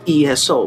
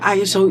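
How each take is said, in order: First: The word begins with an 'ee' sound. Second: The word begins with an 'eye' sound. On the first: The speaker calls it right. "So instead of I, you're going to say that as an E" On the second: The speaker calls it wrong. "I S O is not really the correct pronunciation"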